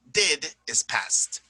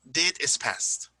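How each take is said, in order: First: Did is past, slowly, weight on did; teacher stress on Did. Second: Did is past, slowly, weight on did; slow, stressed did. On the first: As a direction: lean on the word Did. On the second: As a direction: lean on the word did. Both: Shown as a demonstration.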